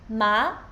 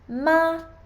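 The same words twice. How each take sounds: First: The pitch rises from middle to high. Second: The pitch stays high and level throughout. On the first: "So second tone goes up" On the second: "First tone is a high and steady tone"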